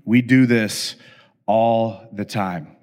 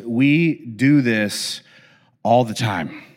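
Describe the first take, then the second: First: Slower, lower cheeky boast; slower, lower cheeky kid's boast; slower smart-aleck quote. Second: Slow, drawn-out defiant boast; slow cheeky kid's boast; slow smart-aleck quote. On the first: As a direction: let it sink in slowly. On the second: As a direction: drag it out like a cheeky kid. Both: Retold or imitated.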